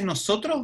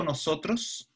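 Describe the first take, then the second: First: "nosotros" ending in a breath of H; aspirated final S. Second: Said in the usual way. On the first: Shown as a demonstration. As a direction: let the last S of "nosotros" soften into H. ("nosotros" con la S final aspirada) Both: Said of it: "Si se la S final la aspira".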